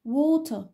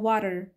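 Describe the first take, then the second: First: The t is a clear, fully pronounced t. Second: The t is flapped, like a quick tapped r. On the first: "water بالبريتش أكسنت" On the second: "الفلاب تي ... في الأمريكان أكسنت ... water ر ر ر"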